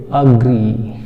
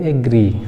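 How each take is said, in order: First: अग्री with a short "a" start, not एग्री; correct pronunciation. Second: एग्री with a front "e" at the start, the way we used to say it; wrong pronunciation shown. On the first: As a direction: open it on "a": अग्री. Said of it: "ये एग्री नहीं ... अग्री". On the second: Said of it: "ये एग्री नहीं". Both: Shown as a demonstration.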